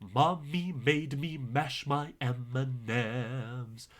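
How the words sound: The words are articulated clearly and distinctly. The speaker calls it right. "you want to be very clear with how you say it"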